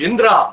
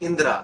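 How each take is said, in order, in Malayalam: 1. ആ പേര് ഉറച്ചാണ് പറയുന്നത്, മൃദുവായിട്ടല്ല. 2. ആ പേര് വളരെ മൃദുവായും സൗമ്യമായും പറയുന്നു. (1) "that modulation വി could change" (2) "വളരെ സോഫ്റ്റ് ആയിട്ട് പറയും"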